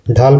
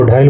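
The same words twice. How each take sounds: First: Said in the usual way. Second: ढाइल with an i slipped in before the l; Nagpuri pronunciation. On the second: Shown as a demonstration. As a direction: say ढाइल as "dhaa-il". (ढाइल का नागपुरी उच्चारण, ल से पहले इ) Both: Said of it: "Hindi शब्द को नागपुरी में बदल जाता है".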